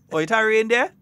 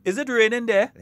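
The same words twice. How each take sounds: First: High, loud question in Grenadian dialect. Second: Higher, louder question, acted out; phone caller asking. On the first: Retold or imitated. Caller to Saint John asking about rain, Grenadian dialect. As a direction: ask it in broad Grenadian everyday talk. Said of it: "That's how we just talk". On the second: Caller in Saint George asking someone in Saint John, acted phone question. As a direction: call out the question to someone in another town. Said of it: "you call somebody in Saint John".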